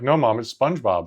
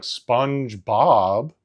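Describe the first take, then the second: First: "SpongeBob" said as one quick word, stress on Sponge; correcting mom. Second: Slow, stretched, rising "SpongeBob?" like an unfamiliar word; confused mom saying "SpongeBob?"; mom's mispronounced SpongeBob. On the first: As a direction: correct her with a plain "SpongeBob". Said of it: "We'd be like". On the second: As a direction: drag out "SpongeBob?" as a puzzled question. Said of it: "my mom would be like". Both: Retold or imitated.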